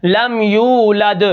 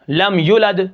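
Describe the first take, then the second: First: Sung, لم یولد slowly in recitation tune; sung, recited. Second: لم یولد said with the waw cut short; waw dropped. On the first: Sung, teacher reciting the correct verse to students. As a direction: chant لم یولد drawn out. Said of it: "recitation example". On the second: Teacher showing the wrong shortened reading. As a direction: drop the long waw in لم یولد. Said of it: "واو کو نکال دیں". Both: Shown as a demonstration.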